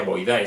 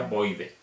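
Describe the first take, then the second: First: Boidae with the a-e said out, bo-i-da-e; wrong Boidae. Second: Boidae said Boide, the ending as a plain e; Latin ae as e. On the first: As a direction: spell out Boidae letter by letter, ending a-e. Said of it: "no se pronuncia Boidae". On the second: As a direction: end Boidae on a single e sound. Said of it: "sino se pronuncia Boide". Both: Shown as a demonstration.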